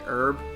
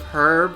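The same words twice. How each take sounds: First: The word begins with no h sound. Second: The word begins with an audible h sound. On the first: This is the American way of saying it. "they say herb" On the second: This is the British way of saying it. "Instead of herb"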